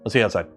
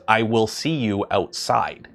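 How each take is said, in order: First: The words blend together in one quick flow. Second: Each word is pronounced fully and distinctly. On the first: "everything just kind of merges together" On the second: "you take the time to enunciate every part of the word"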